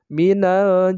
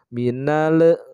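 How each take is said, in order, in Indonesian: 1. Bunyi l-nya jelas, tanpa sengau. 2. Bunyi l-nya ada gema memantul. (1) "Bacaan yang benar adalah" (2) "ada pantulan dari huruf lamnya"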